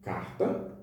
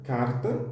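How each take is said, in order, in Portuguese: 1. O R é pronunciado como em Belo Horizonte. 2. O R é pronunciado como um tepe. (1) "que é o caso do português de Belo Horizonte" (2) "que é o caso do T E P"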